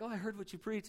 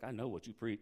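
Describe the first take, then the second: First: Brighter, softer, casual "Oh, I heard what you preach"; breezy and harmless, as if it's a compliment; mock friendly greeting, nothing behind it; light friendly version. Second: Much lower and soft, loaded "I know what you preach"; hint at a threat, lean on "know"; imitating a confrontational churchgoer, low and pointed; ominous version. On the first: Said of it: "It wasn't like". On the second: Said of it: "It's like".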